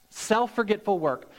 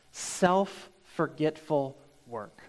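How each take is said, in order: First: Said in the usual way. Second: "self-forgetful work" drawn out slowly and softly, each word weighted; slow emphasis. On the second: Shown as a demonstration.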